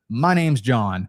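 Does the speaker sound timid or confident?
confident. It is said confidently and firmly.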